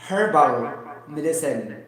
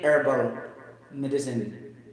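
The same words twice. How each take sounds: First: The h at the start is pronounced. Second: The h is dropped, American style.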